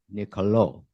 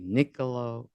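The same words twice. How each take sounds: First: The stress falls on the last syllable. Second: The stress falls before the last syllable. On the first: The speaker calls it right. "the O at the end has an accent grave" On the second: The speaker calls it wrong. "none of the above"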